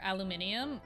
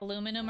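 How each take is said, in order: First: It is said the British way. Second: It is said the non-British way. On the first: "Aluminium is, like, UK" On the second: "We say aluminum"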